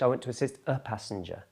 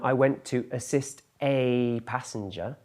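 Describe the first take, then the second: First: The word 'a' is a weak 'uh' sound. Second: The word 'a' is a full 'ay' sound. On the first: "In spoken English" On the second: "Rather than"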